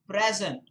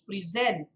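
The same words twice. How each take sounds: First: The stress is on the first syllable. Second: The stress is on the second syllable. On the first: The word is used as a noun. "when it is used as a noun, it is present" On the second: The word is used as a verb. "When the word is used as a verb, it is present"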